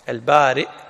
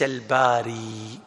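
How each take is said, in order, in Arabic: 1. تنتهي الكلمة بهمزة. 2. تنتهي الكلمة بحرف مد. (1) "البارئ بالهمس" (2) "وليس الباري بالياء"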